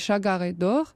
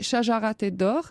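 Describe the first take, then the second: First: The name is said in Egyptian Arabic. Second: The name is said in Classical Arabic. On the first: "En Égypte, on dit" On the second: "en arabe classique"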